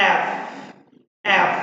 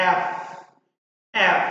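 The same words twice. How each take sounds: The two takes are said the same way.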